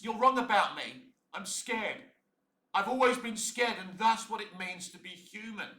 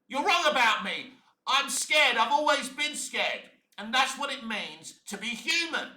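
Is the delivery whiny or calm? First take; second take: calm; whiny. First: It is said calmly in a relatable way. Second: It is shouted in a ranting, whiny way.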